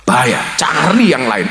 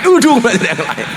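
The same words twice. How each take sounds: First: Said in the usual way. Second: Higher, laughing through the warning; laughing repeat. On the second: Shown as a demonstration. Preacher laughing as he repeats the joking warning.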